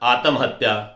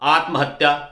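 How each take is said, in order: First: An extra vowel splits the middle consonant cluster. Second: The middle consonant cluster is said tightly together. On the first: The speaker calls it wrong. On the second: The speaker calls it right.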